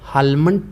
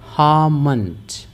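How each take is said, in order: First: The L sound is pronounced in the word. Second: The L sound is left out of the word. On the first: The speaker calls it wrong. "Most of people इसे गलत पढ़ते हैं, हालमंड पढ़ते हैं, जो कि गलत है" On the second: The speaker calls it right. "हेल जो है साइलेंट है"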